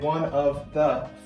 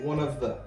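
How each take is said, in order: First: Each word is pronounced clearly and separately. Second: The words are said quickly and run together. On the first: "if you were to clearly pronounce each word" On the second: "in reality, when people say this phrase"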